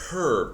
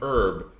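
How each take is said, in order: First: The word starts with a pronounced h sound. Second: The word starts with a silent h. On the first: The speaker calls it right. "we say herb ... because there's a fucking H" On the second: The speaker calls it wrong. "and not herb"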